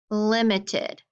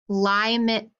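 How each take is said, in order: First: The first vowel is a short 'ih' sound. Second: The first vowel is a long 'eye' sound. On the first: The speaker calls it right. "my I, which was long, has a consonant behind it, so it's short" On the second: The speaker calls it wrong. "that eye is going to be long ... Does that sound right? No"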